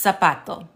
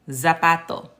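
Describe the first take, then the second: First: It begins with a hissing s sound. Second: It begins with a buzzing z sound. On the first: The speaker calls it right. "It's going to be pronounced zapato" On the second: The speaker calls it wrong. "allowed you to get away with saying zapato"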